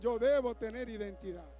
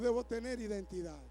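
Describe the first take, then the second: First: It is said more loudly. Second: It is said at normal loudness.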